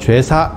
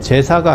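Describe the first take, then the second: First: The first vowel is a rounded 'we' sound. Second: The first vowel is a plain 'e' sound. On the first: This is the older pronunciation from childhood days. "죄사 이런 식 발음들이 있었는데" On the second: This is the present-day pronunciation. "제사가 아니고"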